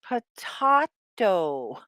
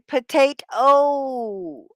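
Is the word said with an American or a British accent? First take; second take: British; American. First: It is said with a British accent. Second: It is said with an American accent.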